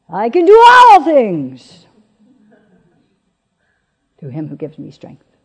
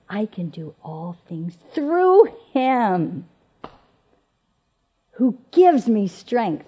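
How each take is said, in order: First: The stress is on "all things". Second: The stress is on "through him".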